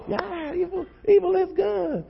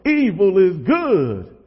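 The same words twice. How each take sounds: First: Very high, mock excited crowd voice; riled-up congregation. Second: Drawn-out, hammed-up preacher yell; gospel preacher voice. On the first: Preacher imitates the movie audience echoing back, riled up. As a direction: echo it far up high like a worked-up church crowd. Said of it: "the audience is so riled up". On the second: Youth preacher mimics a movie preacher yelling, gospel voice. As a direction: cry it out slowly like a gospel preacher. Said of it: "like, a real gospel voice".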